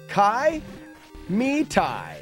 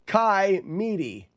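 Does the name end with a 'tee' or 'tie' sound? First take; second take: tie; tee. First: The last syllable sounds like 'tie'. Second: The last syllable sounds like 'tee'. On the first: The speaker calls it right. "It's tie, not T" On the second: The speaker calls it wrong. "Not even close"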